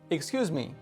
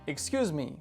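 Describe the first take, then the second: The two takes are said the same way.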